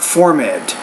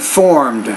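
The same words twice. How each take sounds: First: The ending is said as an extra syllable. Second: The ending adds no extra syllable. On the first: The speaker calls it wrong. "not formed" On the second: The speaker calls it right. "just say formed"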